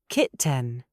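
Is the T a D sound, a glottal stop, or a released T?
released T. The T is sharply released. "British formal ... We release the T"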